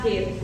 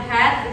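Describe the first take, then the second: First: "heat" with a long ee vowel; correct pronunciation. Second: "head" as students' misreading of "heat"; short e of "head" in place of long ee; imitated mispronunciation. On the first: Shown as a demonstration. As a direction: model "heat" with ee, not the e of head. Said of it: "itu harusnya bacanya heat". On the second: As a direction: echo the learners' wrong vowel in "head". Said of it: "kalian bilang head".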